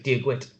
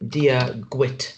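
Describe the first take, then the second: First: The phrase is said quickly and smoothly. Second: The phrase is said slowly and carefully.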